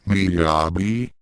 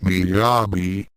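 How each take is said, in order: First: Miyabi? lightly worried, rising at the end; a touch of concern, asking; mild worried question. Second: Said in the usual way. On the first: A narrator's reading. Akan checks on fainted Miyabi, mildly worried. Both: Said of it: "asked Akan worriedly".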